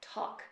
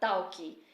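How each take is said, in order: First: The word ends cleanly on the k sound. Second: An extra vowel sound follows the final k. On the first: The speaker sounds like a General American speaker. The speaker calls it right. "focando na pronúncia do sotaque geral americano" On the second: The speaker sounds like a Brazilian speaking English. The speaker calls it wrong. "uma característica muito comum de brasileiro falando inglês"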